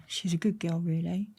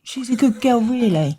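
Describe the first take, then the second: First: A soft, understated fatherly line; dad's quiet advice. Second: Higher and louder, laughing disbelief on good; mock incredulous. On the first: Retold or imitated. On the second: She echoes her dad's words in laughing disbelief, higher and louder. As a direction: repeat it as if it's absurd. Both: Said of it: "coming out that dream thinking".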